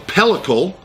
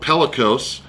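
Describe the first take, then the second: First: The word ends with a 'cle' sound. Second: The word ends with a 'cose' sound. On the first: The speaker calls it right. "the correct pronunciation" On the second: The speaker calls it wrong. "I called it pellicose"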